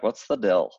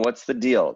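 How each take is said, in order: First: The word deal has a short i vowel. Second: The word deal has a long ee vowel. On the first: "They'd be like" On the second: "instead of saying deal"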